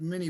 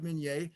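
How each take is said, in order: First: The name is said the common English way. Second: The name is said the French way. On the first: This is how most people say it. The speaker calls it wrong. "Everybody calls it mini ball" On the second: This follows the French inventor's name. The speaker calls it right. "The correct pronunciation is Minié"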